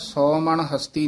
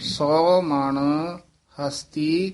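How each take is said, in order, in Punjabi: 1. ਸ਼ਬਦ ਬਿਨਾਂ ਕਿਸੇ ਵਿਰਾਮ ਤੋਂ ਇਕੱਠੇ ਚੱਲਦੇ ਹਨ। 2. ਸੌ ਮਣ ਤੋਂ ਬਾਅਦ ਇੱਕ ਛੋਟਾ ਜਿਹਾ ਠਹਿਰਾਓ ਆਉਂਦਾ ਹੈ। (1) "ਸੌ ਮਣ ਹਸਤੀ ਨਹੀਂ ਕਹਿ ਦੇਣਾ" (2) "ਸੌ ਮਣ ਇੱਥੇ ਠਮਕ ਲਾ ਦੇਣੀ ਹੈ"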